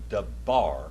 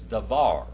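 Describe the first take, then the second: First: The middle consonant is a hard b. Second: The middle consonant is a soft v. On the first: The speaker calls it wrong. "I didn't say dabar" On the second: The speaker calls it right. "It's davar"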